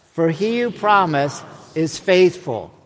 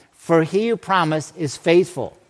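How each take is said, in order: Both takes have the same delivery.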